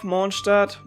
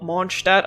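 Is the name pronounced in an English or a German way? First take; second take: English; German. First: The name is said with an English-style pronunciation. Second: The name is said with a German pronunciation.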